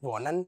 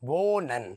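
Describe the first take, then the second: First: The first vowel is short. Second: The first vowel is long. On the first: The speaker calls it wrong. "നോട്ട്" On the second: The speaker calls it right. "ഓ എന്ന് പറയുന്നത് നീട്ടി ഉച്ചരിക്കണം"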